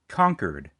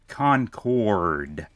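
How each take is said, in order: First: It is said with a local New Hampshire pronunciation. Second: It is said with the usual widespread pronunciation. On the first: The speaker calls it wrong. "I'm from New Hampshire, so uh, the way we pronounce this word is apparently different from the rest of the world" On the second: The speaker calls it right. "let me try again"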